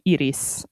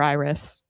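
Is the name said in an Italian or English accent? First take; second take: Italian; English. First: The name is said in an Italian accent. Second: The name is said in an English accent.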